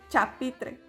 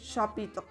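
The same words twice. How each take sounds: First: The word begins with a 'ch' sound. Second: The word begins with an 'sh' sound. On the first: The speaker calls it wrong. "podríamos decirlo como ch" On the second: The speaker calls it right. "pero no, es chapitre"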